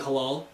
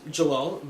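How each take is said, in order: First: The name begins with an H sound. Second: The name begins with a J sound. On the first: Others misread the letter J. The speaker calls it wrong. "see that J and just call me Halal" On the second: This is the name's real pronunciation. The speaker calls it right. "my name's Jalal"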